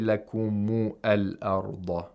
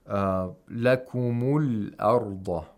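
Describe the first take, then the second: First: The article's vowel is pronounced as a separate syllable. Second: The article's vowel is dropped and linked to lakumu. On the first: The speaker calls it wrong. "We don't say" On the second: The speaker calls it right. "if it's in the middle of the utterance, it should not be pronounced"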